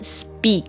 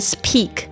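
First: The p after s sounds voiced. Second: The p after s sounds voiceless. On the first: The speaker calls it right. "念speak，在这个S 后面的轻音都会变成浊音的形式" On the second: The speaker calls it wrong. "不念speak"

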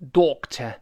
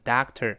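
First: Rounded first vowel and no r sound at the end. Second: Open first vowel and a curled r at the end. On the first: "英式发音读成doctor，前面发o，后面不卷舌" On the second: "美式呢……后面加r 卷舌头"

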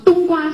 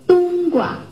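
First: The second syllable carries its full tone. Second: The second syllable is light and toneless. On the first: The speaker calls it wrong. "四川人说话全是讲冬瓜、西瓜、南瓜，我就这样说的" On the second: The speaker calls it right. "你得那个是一个轻声"

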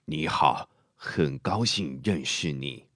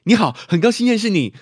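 First: A low, quiet, drawn-out older voice. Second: A high, loud, clipped young-sounding voice.

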